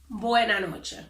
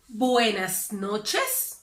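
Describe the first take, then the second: First: The final s sounds are dropped. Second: The final s sounds are pronounced. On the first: "we would say" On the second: "if they want to say buenas noches"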